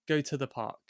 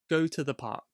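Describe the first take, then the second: First: The words 'to the' have reduced schwa vowels. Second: The words 'to the' have reduced schwa vowels.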